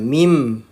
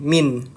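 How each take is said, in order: First: The word ends with an m sound. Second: The word ends with an n sound. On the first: The speaker calls it right. "nah menjadi mim, bukan min" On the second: The speaker calls it wrong. "Kalau kita baca nun sukun, kita baca kan seperti ini"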